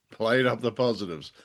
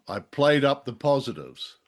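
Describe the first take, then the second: First: Said in the usual way. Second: First take raised and emphatic; stress on played. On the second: Real, not acted. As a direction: lean on "played" as you say it.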